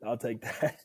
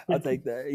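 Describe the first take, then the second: First: Said in the usual way. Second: Laughing. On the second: Real, not acted. Laughing repeat of the compliment.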